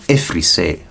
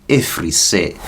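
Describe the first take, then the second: No difference in how they are said.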